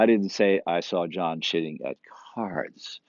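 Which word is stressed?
cards. The word cards is stressed. He cheated at something else. "He's cheating a lot, just not at cards"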